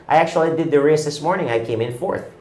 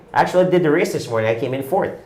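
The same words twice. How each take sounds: The two takes are said the same way.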